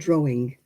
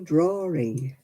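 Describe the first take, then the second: First: No r sound is inserted inside the word. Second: An r sound is inserted inside the word. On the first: The speaker calls it right. "instead of" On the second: The speaker calls it wrong. "They say it a lot on the television as well"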